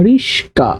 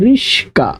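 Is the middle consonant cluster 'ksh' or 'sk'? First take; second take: sk; sk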